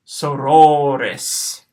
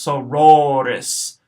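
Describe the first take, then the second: First: "sororis" slow and louder, drawn out; slow echo of "sororis"; slow Latin pronunciation. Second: "sororis" at normal pace; first take of "sororis"; modelled Latin word. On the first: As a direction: stretch "sororis" out. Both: Shown as a demonstration. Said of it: "short O ... and a long O".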